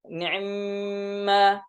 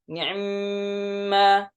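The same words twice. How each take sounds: The two takes are said the same way.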